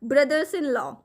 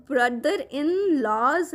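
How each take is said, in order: First: Plural s sounded on "brothers"; stress on BROTHERS. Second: Plural s sounded on "laws"; stress on LAWS. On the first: Teacher giving the correct plural, stress on "brothers". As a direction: put the weight on "brothers", not "law". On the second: Teacher quoting the wrong plural, slow stress on "laws". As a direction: slowly spell out "laws" as the faulty plural. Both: Shown as a demonstration. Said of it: "वो क्या होना चाहिए हमारा?".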